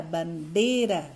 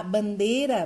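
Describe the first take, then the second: First: "bandeira" slowly, with DEI drawn out; stress on DEI. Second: Said in the usual way. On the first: Shown as a demonstration. Teacher showing the tonic syllable, slow stressed DEI in "bandeira". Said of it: "o D é a sílaba tônica". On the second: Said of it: "é a sílaba tônica".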